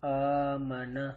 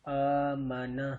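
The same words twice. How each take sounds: Both takes have the same delivery.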